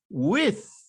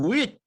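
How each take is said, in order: First: The word ends in a th sound. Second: The word ends in a t sound.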